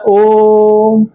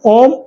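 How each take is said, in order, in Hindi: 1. स्वर कई सेकंड तक खींचा गया है। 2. स्वर छोटा और जल्दी बोला गया है। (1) "पाँच सेकंड में पढ़िएगा" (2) "ऐसे तो होगा नहीं"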